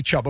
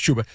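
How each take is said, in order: First: "Chuba" said as it is spelled, CHUB-uh. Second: "Chuba" pronounced CHOO-buh; correct pronunciation. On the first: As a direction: read "Chuba" with a short u, CHUB-uh. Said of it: "should be Chuba, but it's pronounced". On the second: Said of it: "it's pronounced Chuba". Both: Shown as a demonstration.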